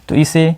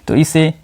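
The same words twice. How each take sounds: The two takes are said the same way.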